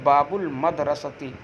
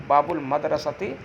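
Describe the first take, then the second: The two takes are said the same way.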